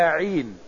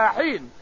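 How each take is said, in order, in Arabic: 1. تبدأ الكلمة بصوت العين الحلقي المجهور. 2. تبدأ الكلمة بصوت الحاء الخفيف.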